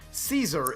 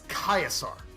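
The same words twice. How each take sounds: First: The word begins with a soft S sound. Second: The word begins with a hard K sound. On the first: The speaker calls it wrong. "it's not Caesar" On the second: The speaker calls it right. "C is always hard, and you pronounce every vowel"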